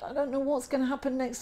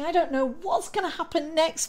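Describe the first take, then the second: First: It sounds fearful and anxious. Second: It sounds excited and eager.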